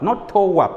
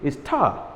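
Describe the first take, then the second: First: The word is said with two syllables. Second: The word is said with one syllable. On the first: The speaker calls it wrong. "not tower, please, as we say" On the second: The speaker calls it right.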